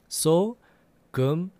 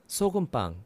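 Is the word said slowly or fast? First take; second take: slowly; fast. First: The word is said slowly. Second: The word is said faster.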